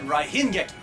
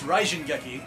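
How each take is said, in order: First: The first word has an H sound in the middle. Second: The first word has a J sound in the middle. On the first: The speaker calls it wrong. "but they said Raihin Geki" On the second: The speaker calls it right. "it's Raijin Geki"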